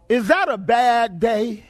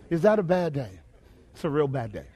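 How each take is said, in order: First: Slow, drawn-out question to the congregation; drawn-out rhetorical question. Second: Low, subdued repeat. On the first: Preacher asks congregation about a drowning day, slow and emphatic. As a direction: stretch it out for emphasis. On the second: Preacher lets the bad day sink in, low and subdued. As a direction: voice dropped low, sinking away softly. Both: Real, not acted.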